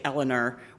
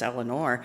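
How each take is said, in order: First: The name has an East Coast pronunciation. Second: The name has a non-East Coast pronunciation. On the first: This is how others mispronounce the name. The speaker calls it wrong. "from the East Coast, they say Eleanor, which drives me nuts" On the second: This is the name's real pronunciation. The speaker calls it right. "but it's Eleanor"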